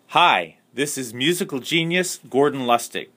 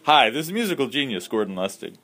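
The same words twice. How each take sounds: First: It is read hesitantly, without confidence. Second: It is said boldly, with confidence.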